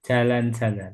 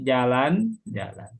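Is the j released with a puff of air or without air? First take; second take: with air; without air. First: The j is released with escaping air. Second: The j is released with no escaping air. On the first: The speaker calls it wrong. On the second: The speaker calls it right.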